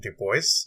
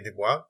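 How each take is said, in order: First: The name is said with English sounds. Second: The name is said with French sounds. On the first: This is how the bearer wanted it said. The speaker calls it right. "he actually did prefer the pronunciation Du Bois" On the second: This is the habitual French-descended way. The speaker calls it wrong. "a bit of a struggle for me to not say"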